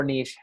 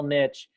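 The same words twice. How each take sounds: First: Long ee and soft sh ending in niche; niche pronounced "neesh". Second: Short i and tch ending in niche; niche pronounced "nitch". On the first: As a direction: say niche to rhyme with leash. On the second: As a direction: say niche to rhyme with pitch. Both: Shown as a demonstration. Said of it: "whatever way we're saying it".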